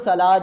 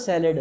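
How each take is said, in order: First: The word ends in a long 'aad' sound. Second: The word ends in a short 'ed' sound. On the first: "Urdu की किताबों तो सलाद है" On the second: "English की किताबों ना तो सैलेड है"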